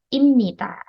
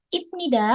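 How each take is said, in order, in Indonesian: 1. Konsonan sebelum 'nida' adalah bunyi M. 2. Konsonan sebelum 'nida' adalah bunyi B. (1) "melainkan Imnita" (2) "bacanya bukan Ibnida"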